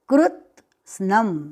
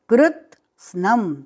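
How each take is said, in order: First: The word is said with a t sound. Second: The same.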